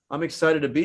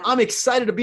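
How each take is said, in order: First: The voice sounds flat and unenthusiastic. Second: The voice sounds lively and enthusiastic. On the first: The speaker does not want to be there. The speaker calls it wrong. "if I don't do that, I'm like, ... that guy does not want to be here" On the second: The speaker is glad to be there. The speaker calls it right. "You can also hear it in my voice because of the tone"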